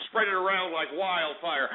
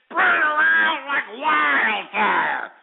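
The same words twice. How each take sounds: First: Said in the usual way. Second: High, slow, drawn-out holler; rallying shout. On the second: Real, not acted. Host urging listeners to share the broadcast, rallying shout. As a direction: holler it out, stretching every word.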